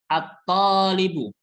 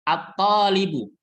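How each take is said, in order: The two takes are said the same way.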